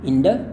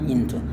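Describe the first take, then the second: First: The t is softened into a light d sound. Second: The t is pronounced as a clear t sound. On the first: This is how it is said in everyday speech. "hanya D-nya D halus ya, bukan D yang kasar" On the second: This is the formal dictionary pronunciation. "formalnya itu cara lafalkannya into"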